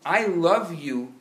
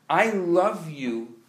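Both takes have the same delivery.

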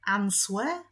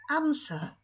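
First: "Answer" with the "w" said aloud, rising; wrong answer. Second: "Answer" with a silent w, like "ansa"; correct answer. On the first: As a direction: ask "Answer" with a spoken w. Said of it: "Nie, nie". (błędne "Answer" z wymówionym w) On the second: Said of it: "Powiedzmy to tak". (poprawne "Answer" bez w, jak "ansa") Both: Shown as a demonstration.

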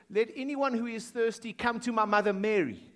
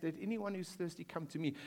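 First: Mock wrong version. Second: Hushed scripture quote. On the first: Preacher mocking a misquoted verse for the congregation, teasing. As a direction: poke fun at the invented wording. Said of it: "it didn't say". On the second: Retold or imitated. Preacher quoting Jesus's real words to the congregation, hushed. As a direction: read the true verse softly, with reverence. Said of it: "He says".

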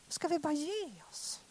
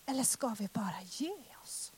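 First: Same question, pitched higher and voiced; higher repeat. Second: Breathy whisper of giving up. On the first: Preacher repeats the question, higher than the whisper. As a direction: lift it up after the whisper. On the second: Preacher asks the congregation whether to give up, whispered. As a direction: drop to a bare whisper, asking. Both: Shown as a demonstration.

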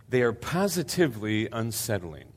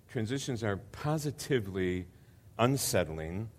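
First: The word "positively" given weight in the middle of the phrase; stress on positively. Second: "positively" stressed and stretched, "unsettling" rising. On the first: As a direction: hit the word "positively" so it lands. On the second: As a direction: dwell on "positively", then lift "unsettling". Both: Shown as a demonstration. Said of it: "I emphasize the word positively".

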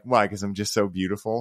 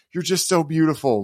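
First: Softer mock version of so beautiful, teasing; a quieter, playful parody of the heartfelt line; teasing mockery. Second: Higher, heartfelt and overcome; overwhelmed sincerity. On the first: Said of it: "She'll make fun of me". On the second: Retold or imitated. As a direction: barely get the words out, moved. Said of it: "all I could muster was".

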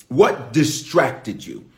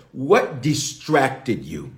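First: What distracted you, slow again; slow repeat. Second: What distracted you, slowly drawn out; slow, pointed question. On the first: Preacher repeating the question slowly. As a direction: hold it slow and heavy. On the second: Preacher rephrasing the question, slow and deliberate. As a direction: let each word land slowly. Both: Shown as a demonstration. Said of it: "say it another way".

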